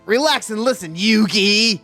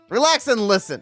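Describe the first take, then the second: First: It is said in a Kaiba impression voice. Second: It is said in the speaker's normal voice.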